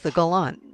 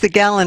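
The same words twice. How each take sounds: First: The name is said with a French pronunciation. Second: The name is said with an American pronunciation. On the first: "If you're French" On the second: "If you're American"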